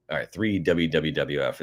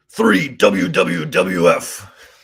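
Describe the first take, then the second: First: Said in the usual way. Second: Slow, loud announcer reading; hammed-up on-air call; radio voice. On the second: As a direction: boom it out like a radio host. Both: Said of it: "that was my little attempt at that".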